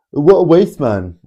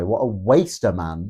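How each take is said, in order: First: Mock roadman. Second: Said in the usual way. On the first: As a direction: mimic the roadman insult, pitched right up. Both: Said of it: "thanks, Mister Roadman".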